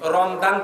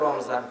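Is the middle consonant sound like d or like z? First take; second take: d; z. First: The middle consonant sounds like d. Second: The middle consonant sounds like z. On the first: Nobody says it this way. The speaker calls it wrong. "রমজান তো বলেন না" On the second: Everyone says it this way. The speaker calls it right. "বলেন তো রমজান"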